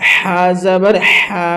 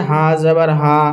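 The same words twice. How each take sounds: First: Slow হা যাবার হা with a strong throaty h; from the throat. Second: হা যাবার হা with a light, plain h; thin sound. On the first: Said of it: "একদম হালাক থেকে". (হালাক থেকে টেনে হা যাবার হা) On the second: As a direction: let হা out easily, no throat friction. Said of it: "পাতলা আওয়াজে". (পাতলা আওয়াজে হা যাবার হা) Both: Shown as a demonstration.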